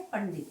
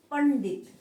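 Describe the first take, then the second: First: पंडित with N flowing nasally into D; correct pronunciation. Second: पंडित loudly, with a separate full N; misspelt form. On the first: Teacher giving the right word, पंडित with a nasal first syllable. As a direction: say पंडित as a joined-up "pandit". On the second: Teacher reading out the word to correct, पंडित loud with separated n. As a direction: say पंडित as a loud "pan-dit". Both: Shown as a demonstration. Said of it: "सही शब्द क्या है".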